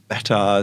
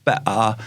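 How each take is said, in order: First: It is said in a standard English accent. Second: It is said in a Cockney-style London accent. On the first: "instead of saying better" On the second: "she says better"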